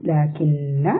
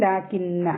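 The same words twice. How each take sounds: First: "ലാകിന്ന" with the double n hummed for two counts; two-count ghunnah. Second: Said in the usual way. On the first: Shown as a demonstration. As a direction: hold the nn in "ലാകിന്ന". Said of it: "രണ്ട് count മണിച്ചിട്ട് pronounce ചെയ്യുക". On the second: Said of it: "പാരായണം ചെയ്യുന്നത് ലാകിന്ന".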